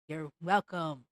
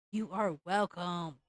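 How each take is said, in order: First: Low, snide "you're welcome"; mock sarcastic. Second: Slow, lower, "are" leaned on hard; stress on are. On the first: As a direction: toss it off lower and smug. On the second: Retold or imitated. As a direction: spell out "You are welcome" with weight on "are". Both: Mocking Disney's excuse.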